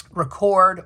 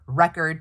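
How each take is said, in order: First: Record as re-CORD, stress on the second syllable; verb record. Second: Record as REC-ord, stress on the first syllable; noun record. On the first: Reading a sticky-note label aloud, record as the verb ri-KORD. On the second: Reading a sticky-note label aloud, record as the noun REK-erd. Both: Shown as a demonstration. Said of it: "depending on how you use it in a sentence".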